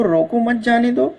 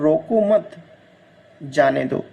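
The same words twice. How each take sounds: First: "रोको मत जाने दो" in one go, higher, rising on दो; no break after मत in "रोको मत जाने दो"; run together. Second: "रोको मत", long pause, then "जाने दो" lower; pause after मत. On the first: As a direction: read "रोको मत जाने दो" straight through, pitched up. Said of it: "पहला की बात करें तो". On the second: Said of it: "और दूसरा है". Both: Shown as a demonstration.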